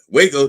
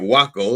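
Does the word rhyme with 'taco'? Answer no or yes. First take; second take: no; yes. First: The word does not rhyme with taco. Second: The word rhymes with taco. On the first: The speaker calls it right. "I know how to pronounce it" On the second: The speaker calls it wrong. "I would have pronounced it Waco, like it, like taco"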